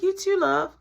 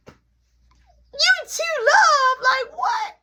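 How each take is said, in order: First: Put-on sweet older lady. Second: High, loud incredulous squeal; stunned disbelief. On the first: Miss Shirley's sign-off quoted. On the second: Retold or imitated. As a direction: echo it back in mock shock. Disbelief at being called love.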